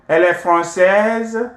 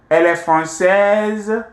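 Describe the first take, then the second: First: The voice rises at the end. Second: The same.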